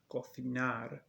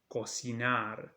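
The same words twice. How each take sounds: First: The c is pronounced like English th. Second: The c is pronounced like English s. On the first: This is how it is said in Spain. "in Spain. Cocinar, like th" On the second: This is how it is said in Latin America. "in Latin America ... s"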